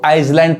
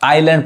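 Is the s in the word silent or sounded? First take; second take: sounded; silent. First: The s is pronounced in the middle. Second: The s is left out entirely. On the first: The speaker calls it wrong. "जो कि गलत उच्चारण है" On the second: The speaker calls it right. "एस नहीं पढ़ाएगा"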